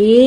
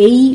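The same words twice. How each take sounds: First: এ as one unglided "e" sound; pure E vowel. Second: এই gliding from "e" into "i"; EI diphthong. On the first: Teacher showing what English speakers avoid, pure E vowel. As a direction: say এ as a single steady vowel. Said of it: "এ উচ্চারণ করে না". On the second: Teacher showing how English speakers say it, EI diphthong. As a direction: say এই as one gliding "ay" sound. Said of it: "এই উচ্চারণ করে". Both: Shown as a demonstration.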